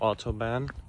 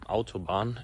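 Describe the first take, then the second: First: It is pronounced with an English-style pronunciation. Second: It is pronounced with a German-style pronunciation.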